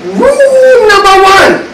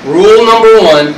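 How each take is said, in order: First: High, slow mock kung fu master. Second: Said in the usual way. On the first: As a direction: intone it like a martial arts sage. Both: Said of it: "I should say it like a kung fu master".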